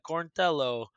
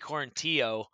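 First: The middle syllable sounds like 'tell', rhyming with Jello. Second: The middle 'ill' syllable is left out. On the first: The speaker calls it right. "a lot of people with like Italian accents, like Corintello ... rhymes with like Jello" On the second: The speaker calls it wrong. "The bad ones that I don't like are just when they say Billy Corintio, because then it basically sounds like you're just skipping out on the I-L-L"

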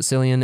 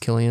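First: The name begins with an S sound. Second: The name begins with a K sound. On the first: The speaker calls it wrong. "I used to pronounce it Cillian" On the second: The speaker calls it right. "he said it's pronounced Cillian"

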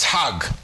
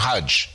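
First: The word ends with a hard G sound. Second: The word ends with a J sound.

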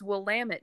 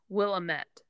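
First: The name's ending rhymes with 'damn it'. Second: The name is pronounced the way it is spelled. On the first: This is how the locals say it. "the vineyards around there will all say, it's Willamette, damn it" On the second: This is how a reader would guess it from the spelling. "the way it's spelled, you would say it as Willamette"

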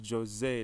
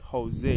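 First: It is read as spelled, with a hard J. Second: It begins without a hard English J sound. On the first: The speaker calls it wrong. "some people still pronounce it as Jose, like J-O-S-E" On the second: The speaker calls it right. "but it is actually Jose"

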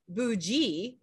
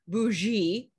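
First: The middle consonant is a hard g sound. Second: The middle consonant is a soft zh sound. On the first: Someone is upwardly mobile and actually wealthier. "it's pronounced like B-O-O-G-E-E, not the Z-H sound" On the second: Someone acts richer than they really are. "it's pronounced like B-O-O-Z-H-E-E"

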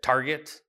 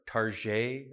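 First: Target is said in the ordinary way. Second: Target is said the local Southern Manitoba way.

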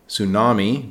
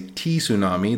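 First: The word begins with an S sound, no T. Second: The word begins with a clearly sounded T. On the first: The speaker calls it right. "the T is silent" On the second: The speaker calls it wrong. "do not say T-tsunami"

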